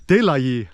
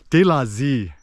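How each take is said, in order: First: "Yi" with a Northern Vietnamese y-glide sound; Hanoi pronunciation. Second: "Z" as Southern slang for "Yi"; Saigon pronunciation. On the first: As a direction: say "De la Yi" the proper Hanoi way, y not z. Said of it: "you're supposed to say". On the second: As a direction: say "De la Z" the Saigon way, z replacing y. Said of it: "They'll say Z instead of Yi". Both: Shown as a demonstration.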